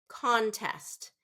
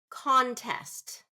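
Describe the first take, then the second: No difference in how they are said.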